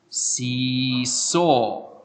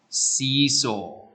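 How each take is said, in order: First: It is said at a normal, careful pace. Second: It is said a little faster.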